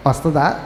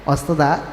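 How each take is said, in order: Both takes have the same delivery.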